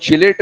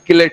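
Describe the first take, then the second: First: The word begins with a ch sound. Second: The word begins with a hard k sound. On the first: The speaker calls it wrong. "चिलेट ring नहीं होता" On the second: The speaker calls it right. "किलेट ring होता है"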